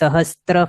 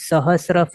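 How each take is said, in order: First: A t sound comes before the r. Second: No t sound comes before the r. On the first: The speaker calls it wrong. "સહસ્ત્ર ફણા Parshvanath નહીં બોલવાનું" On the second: The speaker calls it right. "ત નથી"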